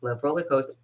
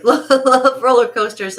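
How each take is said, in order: First: Said in the usual way. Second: High, loud, laughing love roller coasters; excited gush. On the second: Real, not acted. Gushing to viewers about rides, high loud delight. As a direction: burst out with delight.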